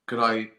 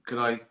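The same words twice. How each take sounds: The two takes are said the same way.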